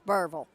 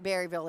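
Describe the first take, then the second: First: The name is said with two syllables. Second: The name is said with three syllables. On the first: The speaker calls it right. "it's Burville" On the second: The speaker calls it wrong. "it's not Berryville"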